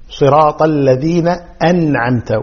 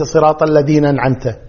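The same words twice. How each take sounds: First: صراط الذين أنعمت with full "alladhina an'amta"; clear endings. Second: صراط الذين أنعمت run into "alladhinan'amta"; slurred joining. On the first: (صراط الذين أنعمت بهمزة واضحة) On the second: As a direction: swallow the hamza of أنعمت. (إدغام الذين في أنعمت) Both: Shown as a demonstration. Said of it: "وليس".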